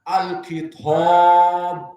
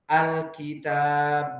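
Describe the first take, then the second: First: The long a is heavy with rounded lips. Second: The long a is light and thin. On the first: The speaker calls it wrong. "bukan alkitab" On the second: The speaker calls it right. "dibacanya alkitab"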